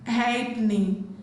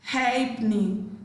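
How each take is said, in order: Both takes have the same delivery.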